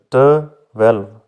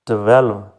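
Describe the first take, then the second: First: twelve split as "te", pause, "welve"; two separate syllables. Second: Said in the usual way. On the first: Shown as a demonstration. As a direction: break twelve into two clear parts. (Twelve को दो हिस्सों में तोड़कर) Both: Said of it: "दो हैं".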